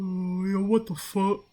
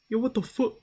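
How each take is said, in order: First: It is said in a deeper voice. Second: It is said in a higher voice.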